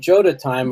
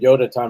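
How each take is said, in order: First: The name begins with a J sound. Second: The name begins with a Y sound.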